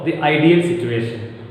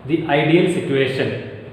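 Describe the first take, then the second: First: "the ideal" with a neutral vowel in "the"; "the" as thuh. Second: "the ideal" with a long ee in "the"; "the" as thee. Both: Shown as a demonstration. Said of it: "where can we pronounce T H E".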